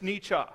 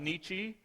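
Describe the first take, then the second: First: The name is said in a German way. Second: The name is said in an anglicized way. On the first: The speaker calls it right. "if you are reading the German properly" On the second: The speaker calls it wrong. "the German mispronounced, as they, most people call him"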